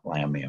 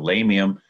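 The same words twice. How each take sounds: First: The first vowel sounds like 'lamb'. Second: The first vowel sounds like 'lay'. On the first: The speaker calls it wrong. "I used to say Lamium" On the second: The speaker calls it right. "So Lamium and not Lamium"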